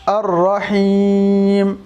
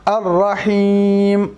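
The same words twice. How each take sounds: The two takes are said the same way.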